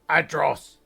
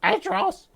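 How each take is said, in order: First: Loud, raised first call. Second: Louder, very high insistent call; yelling up. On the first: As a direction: shout a name up to someone. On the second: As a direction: yell the name at a high pitch. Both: Acted. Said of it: "she yells up".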